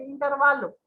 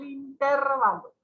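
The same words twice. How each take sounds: First: "intervalo" stressed as inter-VA-lo; correct stress on VA. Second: "intervalo" stressed on TER, as in-TÉR-valo; common wrong stress. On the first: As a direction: land the stress of "intervalo" on the next-to-last syllable. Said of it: "Es una palabra grave y no esdrújula". ("intervalo" con acento en VA) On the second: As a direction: punch the second syllable of "intervalo". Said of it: "siempre pronunciamos de esa manera". ("intervalo" mal acentuado en TÉR) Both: Shown as a demonstration.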